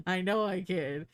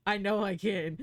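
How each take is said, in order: Both takes have the same delivery.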